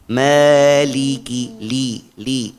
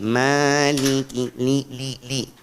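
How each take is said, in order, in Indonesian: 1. Suku katanya diucapkan tanpa resonansi sengau. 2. Suku katanya bercampur dengan resonansi sengau. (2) "Gak boleh ... campur sama hidung"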